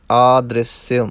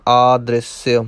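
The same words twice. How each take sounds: The two takes are said the same way.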